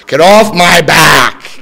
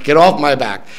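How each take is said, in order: First: Slow, loud get off my back; loud slow demand. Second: Said in the usual way. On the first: Shown as a demonstration. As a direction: stretch off and push it out loud.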